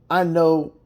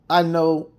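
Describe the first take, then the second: No difference in how they are said.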